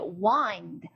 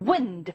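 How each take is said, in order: First: The vowel is a long 'eye' sound. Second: The vowel is a short 'i' sound. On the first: It means to turn or coil something. "I가 엔디를 만나서 wind를 읽어진다" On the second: It means moving air. "아인드로 안 읽고 wind"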